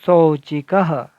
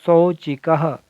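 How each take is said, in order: First: शौचिकः drawn out slowly, falling at the end; slow careful reading. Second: Said in the usual way. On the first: Shown as a demonstration. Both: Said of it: "इस प्रकार शब्द बना".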